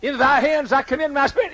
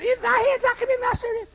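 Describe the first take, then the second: First: Said in the usual way. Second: Fast, high, softer sing-song parody; mocking. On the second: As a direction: rattle off his prayer in scorn. Sinner mocking Jesus's words.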